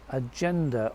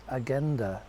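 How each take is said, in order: First: It is pronounced the usual English way. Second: It is pronounced the classical Latin way.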